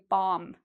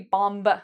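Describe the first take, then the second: First: The word ends on the M, without B. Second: A B sound is heard after the M. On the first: The speaker calls it right. "you do not pronounce the B" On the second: The speaker calls it wrong. "So we don't say bomb"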